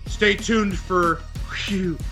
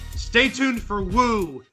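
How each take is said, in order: First: The show name is said as 'whew'. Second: The show name is said as 'woo'. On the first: This is the usual on-air pronunciation. "they would say" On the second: This is one announcer's own variant. "But Jack Nars did not always say that"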